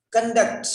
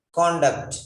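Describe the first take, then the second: First: "Conduct" as kən-DUCT, higher, weak first vowel; "Conduct" with a schwa, kun-DUCT; verb conduct. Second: "conduct" as KON-duct, full o, falling; "conduct" with an open o up front; noun conduct. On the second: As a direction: stress the first syllable of "conduct". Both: Shown as a demonstration. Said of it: "different pronunciation".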